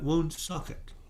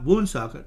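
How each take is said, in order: First: The stress is on the second syllable. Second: The stress is on the first syllable. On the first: "She put the emphasis on the second" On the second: "not wound socket"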